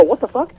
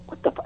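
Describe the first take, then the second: First: High-pitched bewildered question; mock bewildered curse; baffled disbelief. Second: Hushed, cut-off curse; under-the-breath baffled reaction; muttered disbelief. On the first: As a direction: blurt it higher, rising in disbelief. Repeats his baffled reaction, completed. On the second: Retold or imitated. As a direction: start the curse softly and break it off. First, cut-off retelling of his reaction.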